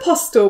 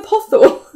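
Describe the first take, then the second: First: The word has a clear s sound. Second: The word is said without a clear s. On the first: The speaker calls it right. "I'm sure it's apostle" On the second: The speaker calls it wrong. "but you're saying apostle"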